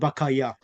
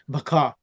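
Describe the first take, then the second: First: The word ends with a pronounced 'ya' syllable. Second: The word ends in a prolonged 'a' sound. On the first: The speaker calls it wrong. "instead of bakaya" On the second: The speaker calls it right. "join it and prolong the previous word slightly, make it baka with alif maksura"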